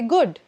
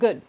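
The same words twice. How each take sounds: First: The final d sound is strong and deep. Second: The final d sound is faint and soft. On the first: "In the Indian accent, we usually stress on the D" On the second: "in the American accent especially, the D sort of floats away"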